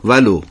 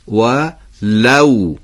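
First: It is said as one word, Persian style. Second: It is said as two words, Arabic style. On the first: The speaker calls it wrong. "ما تو فارسی معمولا میگیم ولو، ولو با حالت ضمه میگیم" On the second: The speaker calls it right. "تو نوع تلفظ دقت بفرمایید"

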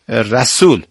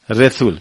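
First: It is said with a Persian pronunciation. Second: It is said with a Turkmen pronunciation. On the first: "ما میگیم رسول" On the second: "اون میگه رسول رسول"

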